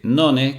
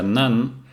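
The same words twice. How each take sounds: First: The word is read letter by letter as spelled. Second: The word has its English pronunciation. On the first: "esta palabra que dice none" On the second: "que en realidad se pronuncia none"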